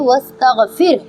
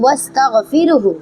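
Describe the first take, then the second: First: The word ends without the final hu sound. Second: The word ends with the final hu sound. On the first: The reader stops at this word. "रुकने के सूरत में हम इसे पढ़ेंगे" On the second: The reader continues without stopping. "अगर आप नहीं रुक रहे हैं"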